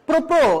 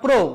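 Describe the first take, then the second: First: The r sound is pronounced twice, doubled. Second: The r sound is pronounced only once. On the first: The speaker calls it wrong. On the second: The speaker calls it right.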